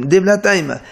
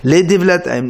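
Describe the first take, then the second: First: Devlataim said as Devlataima, ending on a clear final a; he ending added. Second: Said in the usual way. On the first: Shown as a demonstration. Teacher shows the Hebrew form with an ending a. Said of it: "he à la fin". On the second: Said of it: "au lieu de dire les Mitzrayim".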